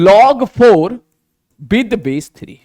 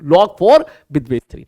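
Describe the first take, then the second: First: "log four", pause, "with base three", slow and deliberate; slow reading demo. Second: Said in the usual way. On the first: Shown as a demonstration. ("log four with base three" धीरे, रुककर, साफ़ पढ़कर) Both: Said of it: "बोल कैसे रहे इसको".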